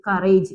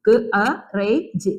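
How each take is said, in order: First: Said in the usual way. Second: ക്, അ, റേ, ജ് as separate sounds; sounded out. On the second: Shown as a demonstration. Teacher showing pupils how to read it, sound by sound. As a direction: break the word into ക്, അ, റേ, ജ് with small gaps. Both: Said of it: "അപ്പൊ നമ്മളിത് എങ്ങനെ വായിക്കും".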